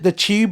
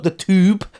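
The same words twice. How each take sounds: First: Tube is said with a British accent. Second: Tube is said with an American accent. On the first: This is how the locals say it. "we call it the tube" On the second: This is how the listener says it. "not the tube, as you say"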